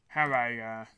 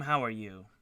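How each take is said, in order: First: Chewing while talking. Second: Words round a bite of food; chewing while talking. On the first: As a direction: mouth full, words muffled by food. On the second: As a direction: talk while chewing something. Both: Real, not acted. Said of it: "Sorry, I'm chewing my".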